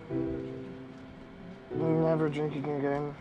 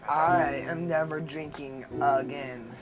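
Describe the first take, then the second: First: It is said quietly. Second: It is said loudly.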